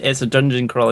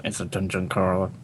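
First: Said in the usual way. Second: Low, quiet growly mimicry; mock grumble. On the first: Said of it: "it's just 'cause Ben said". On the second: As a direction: imitate a friend grumbling the words under his breath. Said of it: "You sounded just like, "Grr".

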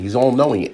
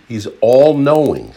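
First: Said in the usual way. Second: All-knowing drawn out slowly, leaning hard on all-knowing; stressed all-knowing. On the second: Shown as a demonstration. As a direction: land all-knowing slow and heavy. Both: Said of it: "repeated for emphasis".

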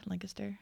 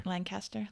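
First: Lancaster with weak middle, softly tried out; Lancaster as LANK-ister. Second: Lancaster with full CAST, softly tried out; Lancaster as LAN-caster. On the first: Listener trying both ways, Lancaster as LANK-uh-ster. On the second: Listener trying both ways, Lancaster as LAN-caster. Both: Shown as a demonstration. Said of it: "difference between Lancaster and Lancaster".

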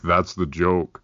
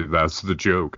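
First: Deadpan Rainer Wolfcastle. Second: Deadpan punchline. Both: Retold or imitated. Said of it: "deadpan do these terrible non-jokes".

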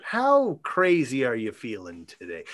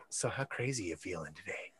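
First: Lightly voiced low-pitched proposition; Andral. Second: Very low, hushed mock-crazy proposition; Andral. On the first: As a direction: quote it a little low, deliberately. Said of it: "Andral says". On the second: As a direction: sidle up and murmur it deep under the breath. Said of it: "Andral being like".

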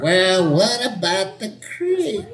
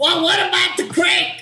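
First: Put-on a young person doing an old lady, slowly; very old faint voice. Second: Put-on high, affected old Hollywood lady; 1940s movie star lady. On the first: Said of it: "young person doing an old person voice". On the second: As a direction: play a 1940s screen starlet. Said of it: "nineteen forties, lady movie star".

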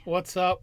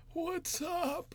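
First: Said in the usual way. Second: Put-on high, thin frail elderly voice; old man voice. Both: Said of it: "that old man voice".

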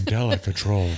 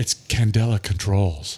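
First: Low, polished ad read; marketing voice. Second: Low, slow sales pitch voice; marketing voice. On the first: Acted. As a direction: say the brand like a commercial. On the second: Real, not acted. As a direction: announce the company like an ad. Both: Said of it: "That's a marketing voice".

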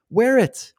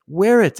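First: Wear punched much higher; emphatic. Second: Wear punched high and loud; emphatic. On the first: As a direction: hit wear high and hard. Telling mask lovers to wear it. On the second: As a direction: stress wear, falling. Repeated wear it. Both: Real, not acted.

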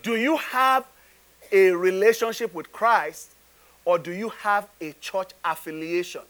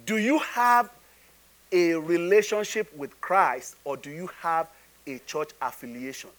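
First: Firmer question with "relationship with Christ" pushed out; emphatic repeat. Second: Measured question. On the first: Preacher putting the question to congregation once more, emphatic repeat. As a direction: press "relationship with Christ", hold back on "church affiliation". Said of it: "I'll say it again". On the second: Preacher asking congregation about relationship with Christ, measured question. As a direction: pose it deliberately, letting the ending drop away. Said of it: "Okay, I'll say it again". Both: Real, not acted.

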